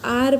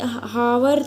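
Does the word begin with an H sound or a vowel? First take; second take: vowel; H sound. First: The word begins directly with a vowel. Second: The word begins with an H sound. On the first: The speaker calls it right. "आर बोलते हैं" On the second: The speaker calls it wrong. "ऐसे हावर तो नहीं बोलते हम लोग"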